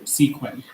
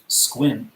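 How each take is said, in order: First: The name is said as spelled, as 'Sequim'. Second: The name is said the local way, as 'Squim'. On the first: This is how people from outside the area say it. "Most people who see it and are, aren't from the area pronounce it Sequim" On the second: This is how people from the area say it. "this is a city in Washington State where we are from"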